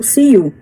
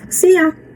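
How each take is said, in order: First: The second word ends with a full 'oo' sound. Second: The second word is reduced to a short 'ya'. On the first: "Mas eles não falam you" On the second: "normalmente se fala ya"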